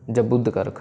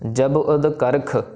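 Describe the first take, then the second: First: The final b runs straight into the next word. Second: The two words are kept separate, not linked. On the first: The speaker calls it wrong. "सो ऐसे नहीं करना" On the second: The speaker calls it right. "जब और उदकर्ख को अलग अलग पढ़ना है"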